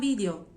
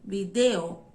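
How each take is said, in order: First: The stress is on the first syllable. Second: The stress is on the second syllable. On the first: This is how people in Spain say it. "na Espanha não é uma palavra heterotônica" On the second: This is how Latin Americans say it. "tá no D"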